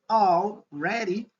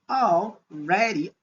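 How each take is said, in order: Both takes have the same delivery.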